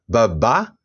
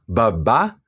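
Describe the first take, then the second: First: "Babá" with the final "bá" high and strongest. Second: "babá" with the first "ba" low and weak. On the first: Teacher contrasts tones for students, "Babá" rising at the end. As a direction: say "Babá" rising onto the last syllable. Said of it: "a sílaba ba é a mais forte". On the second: Teacher contrasts tones for students, "babá" low first syllable. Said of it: "a primeira sílaba ba tem um som fraco, baixo". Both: Shown as a demonstration.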